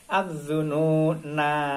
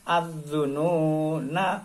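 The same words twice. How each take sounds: First: The final vowel is held long at a stop. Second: The final vowel is short and runs on. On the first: The reading stops on this word. "kalau diwakofkan tetap" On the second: The reading continues into the next words. "Kalau diteruskan, diwasolkan"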